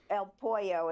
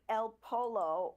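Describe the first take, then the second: First: The middle consonant sounds like a Y. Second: The middle consonant sounds like an L. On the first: The speaker calls it right. "is how it's pronounced" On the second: The speaker calls it wrong. "I said it wrong"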